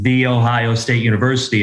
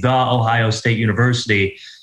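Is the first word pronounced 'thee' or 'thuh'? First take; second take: thee; thuh. First: The first word is said with a long 'ee' vowel. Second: The first word is said with a short 'uh' vowel. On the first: The speaker calls it right. "is how it's said" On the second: The speaker calls it wrong. "it's not proper"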